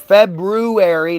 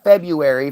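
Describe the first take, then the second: First: The r after the b is clearly pronounced. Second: The r after the b is left out. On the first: The speaker calls it right. "B R U" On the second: The speaker calls it wrong. "not February"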